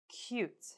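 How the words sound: The pitch falls at the end. "falling intonations"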